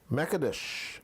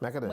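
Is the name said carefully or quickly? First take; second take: carefully; quickly. First: The name is said slowly, each syllable pronounced carefully. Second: The name is said quickly, the syllables running together. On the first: The speaker calls it wrong. "you over enunciating" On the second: The speaker calls it right. "So when you say it fast"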